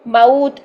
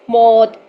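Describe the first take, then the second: First: The vowel glides from 'a' into 'u'. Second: The vowel is one plain 'o'-like sound. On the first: The speaker calls it right. "जबकि हमने क्या करना है" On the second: The speaker calls it wrong. "ऐसे पढ़ रहे थे"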